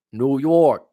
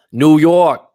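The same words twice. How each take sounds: First: Higher, moderately loud echo of a holler; toned-down shout-out. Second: Loud, high, drawn-out call; big full-voiced holler; hammed-up shout-out. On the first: Pretend. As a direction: call the city name out, holding back a little. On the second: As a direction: belt out the city name like a hype man. Shout-out to viewer's home city.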